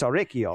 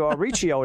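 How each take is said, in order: First: Auricchio with a trilled R; rolled r. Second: Said in the usual way. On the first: Shown as a demonstration. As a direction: roll the r in Auricchio hard. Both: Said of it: "I'm rolling my R's".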